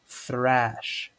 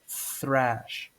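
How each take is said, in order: First: The word begins with a th sound. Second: The same.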